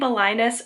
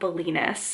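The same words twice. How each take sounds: First: The name is said like an Ohio town. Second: The name is said in the standard way. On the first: The speaker calls it wrong. "I think I was saying Belinus earlier. That's just the Ohio coming out of me" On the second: The speaker calls it right. "I know I was saying it wrong before"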